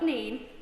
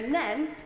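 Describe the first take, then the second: First: The vowel sounds like 'ee', as in 'seen'. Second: The vowel sounds like 'eh', as in 'ten'. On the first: The speaker calls it wrong. "not Neen" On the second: The speaker calls it right. "it is pronounced the River Nen"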